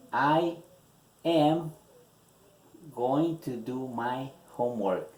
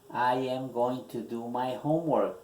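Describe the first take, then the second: First: Slow dictation, "I" and "am" set apart by long pauses; dictée mot à mot. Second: Said in the usual way. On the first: Shown as a demonstration. Repeats answer word by word, dictating.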